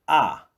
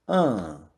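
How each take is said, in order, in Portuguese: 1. A vogal é falada com a boca aberta. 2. A vogal é falada pelo nariz. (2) "Agora os sons nasais"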